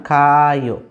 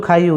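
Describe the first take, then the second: First: খায়ও with both a sounds kept apart, kha-a-yo; খায়ও drawn out so the two a sounds clash; awkward double a. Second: খাইও said quickly as one syllable, khai-o; খাইও with the extra a dropped, said smoothly; smooth single a. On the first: Teacher showing students the clumsy double-a sound, drawn out. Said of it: "একটু কেমন জানি হয়ে যায় না, বিদঘুটে". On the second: Teacher giving students the smooth spoken form, one a dropped. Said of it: "শুধু খাইও উচ্চারণ আসবে". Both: Shown as a demonstration.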